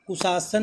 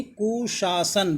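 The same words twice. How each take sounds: First: कुशासन said ku-saa-san; wrong s sound. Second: कुशासन said slowly as ku-shaa-san; sh then s. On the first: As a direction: use a plain "s" for the first sibilant of कुशासन. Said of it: "कुशासन नहीं". (गलत उच्चारण, कुशासन को "कुसासन" बोलें) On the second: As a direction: give कुशासन a clear "sh", then "s". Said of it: "बड़ा सा फिर छोटा सा". (कुशासन में धीरे से "शा" फिर "स") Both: Shown as a demonstration.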